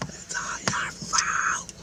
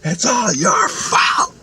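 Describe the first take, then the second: First: Slow, strained whisper with no voice; the scream redone as a breathy whisper. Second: High, slow, stretched-out scream; retold scream. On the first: Retold or imitated. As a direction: hiss the accusation like a strangled scream. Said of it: "And screamed it, like". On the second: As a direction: scream it right in his face. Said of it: "she screamed right in my face".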